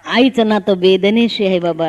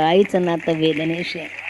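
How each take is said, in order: First: Said in the usual way. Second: Softer, slower repeat of आईचं नातं वेदनेशी आहे; quiet, slow emphasis on आईचं; soft slow echo. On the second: Shown as a demonstration. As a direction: let the line sink softly and slowly. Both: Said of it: "म्हणून लक्षात ठेवा".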